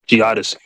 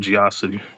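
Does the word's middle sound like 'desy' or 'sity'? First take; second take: desy; sity. First: The middle is said as 'desy' with a d. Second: The middle is said as 'sity' without a d. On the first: The speaker calls it right. "There you go" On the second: The speaker calls it wrong. "said Geosity"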